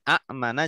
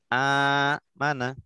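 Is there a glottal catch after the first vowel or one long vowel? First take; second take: glottal catch; long vowel. First: Two short vowels are split by a glottal catch. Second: The opening vowel is merged into one long vowel. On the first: This is the original underlying form. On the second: This is the actual form after the merging. "jadi panjang"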